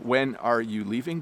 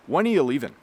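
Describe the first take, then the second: First: It is said slowly and carefully. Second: It is said quickly and compressed. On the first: "the slow, careful version"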